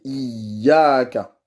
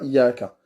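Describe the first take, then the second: First: The y sound is doubled and held. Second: The y sound is single and short. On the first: The speaker calls it right. "mais iaka. Il faut tenir le y" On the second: The speaker calls it wrong. "C'est pas iaka"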